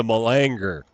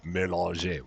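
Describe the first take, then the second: First: Malanger said the American way, muh-LAN-jer; American pronunciation. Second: Mélanger with a soft French may-lahn-ZHAY, quieter; savoring a French word. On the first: Retold or imitated. A gamer mocks how an American says it: malanger, muh-LAN-jer. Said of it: "as someone in America would say". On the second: Shown as a demonstration. A gamer savors the French machine name: soft French Mélanger. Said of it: "Just fun to say".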